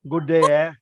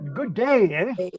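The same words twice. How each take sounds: First: It is said flat, without expression. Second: It is said lively, with a smile.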